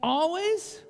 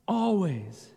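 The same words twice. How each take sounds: First: Always? rising up like a question. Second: Always. settled with a falling end; firm answer. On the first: Pastor quizzing the children, questioning rise. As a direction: ask Always? with a lifted end. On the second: Pastor answering his own question, settled fall. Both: Shown as a demonstration. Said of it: "Should we be rejoicing?".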